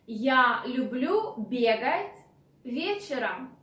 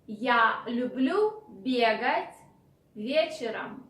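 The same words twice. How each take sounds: The two takes are said the same way.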